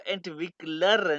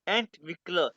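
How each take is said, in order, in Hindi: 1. इस शब्द के अंत में एक साफ r की ध्वनि है। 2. शब्द स्वर पर समाप्त होता है, r नहीं। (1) "इसको एंटविक्लर नहीं कहना आपने" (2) "जर्मन वाले प्रोनाउंस करते हैं एंटविक्ला"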